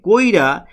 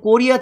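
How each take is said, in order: First: The i sound comes before the r. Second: The i sound comes after the r. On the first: This is how people actually speak. "র কিন্তু আগে চলে আসছে" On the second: This is the formal written form. "ইটা হচ্ছে রর পরে আছে"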